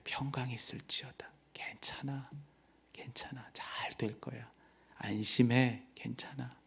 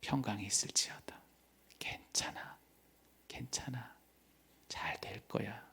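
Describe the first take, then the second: First: Soft, hushed reassurance; Jesus calming his frightened disciples in a whisper; tender whisper. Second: Soft, hushed blessing; Jesus' gentle whisper of peace to believers; tender whisper. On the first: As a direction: breathe the comfort to frightened disciples. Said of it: "가장 따뜻한 그분의 음성을". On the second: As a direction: whisper comfort close to the listener. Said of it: "우리에게 들려주시는 그 말씀". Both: Acted.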